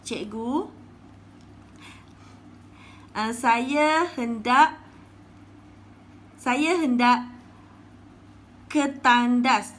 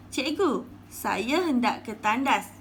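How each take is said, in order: First: Loud, slow pleading pupil; pupil asking permission. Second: Said in the usual way. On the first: Acted. Pupil Bazli asks the teacher if he may go to the toilet, pleading loudly. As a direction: beg the teacher to let you go. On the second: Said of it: "kata Bazli".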